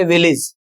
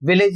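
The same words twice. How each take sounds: First: विलेज said with a short "ij" ending, vil-ij; the right way, विलेज ending in a short "ij"; correct village. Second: विलेज said with a full "ej" ending, vil-ej; the common wrong way, विलेज ending in "ej"; wrong village. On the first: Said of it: "इसका सही उच्चारण क्या है". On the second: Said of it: "अक्सर लोग क्या करते हैं". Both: Shown as a demonstration.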